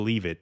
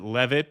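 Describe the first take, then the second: First: It is said like the two words 'leave it'. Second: It is said like 'Levitt', one word. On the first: This turns the name into a joke. "I like calling him Leave It" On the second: This is how the man himself likely says it. "probably likes to pronounce it Levitt"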